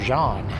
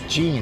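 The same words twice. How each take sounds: First: The name is said the French-Canadian way. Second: The name is said like English Gene.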